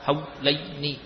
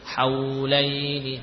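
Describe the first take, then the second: First: The voice stops short on the w sound. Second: The voice keeps flowing through the w sound. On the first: The speaker calls it wrong. "bukan haulaini" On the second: The speaker calls it right.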